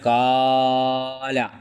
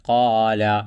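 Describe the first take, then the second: First: The long vowel is stretched far too long. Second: The long vowel is held for two counts. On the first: The speaker calls it wrong. "ഇങ്ങനെ കാല എന്ന് പറയാൻ പാടില്ല" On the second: The speaker calls it right. "അങ്ങനെ ആ ഒത്ത രൂപത്തിലായിരിക്കണം"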